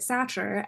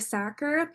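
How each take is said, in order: First: The name is said with a 'ch' sound. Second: The name is said without a 'ch' sound. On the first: The speaker calls it wrong. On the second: The speaker calls it right.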